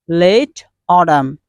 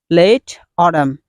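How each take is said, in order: No difference in how they are said.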